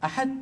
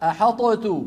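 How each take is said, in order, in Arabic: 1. يندمج ṭ اندماجاً تاماً في t مشددة. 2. يُطلق ṭ بارتداد له صدى. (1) "لو أدغمنا ماذا قلنا؟" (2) "ولو أظهرنا ماذا قلنا؟ أحطت بقلقلة الطاء"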